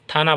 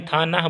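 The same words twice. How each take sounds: First: "थाना" run together as one word; everyday pronunciation. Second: "था ना" as two separate syllables; spelled-out pronunciation. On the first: Teacher showing pupils how the word is really spoken, joined pronunciation. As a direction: say "थाना" joined, without a break. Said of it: "थाना बोलते हैं". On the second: Teacher showing pupils how it is written but not spoken, split pronunciation. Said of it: "था ना बोलते नहीं". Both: Shown as a demonstration.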